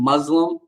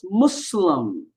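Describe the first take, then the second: First: The middle consonant is a buzzing Z sound. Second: The middle consonant is a hissing S sound. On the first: The speaker calls it wrong. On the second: The speaker calls it right. "it's a S sound, not a Z sound"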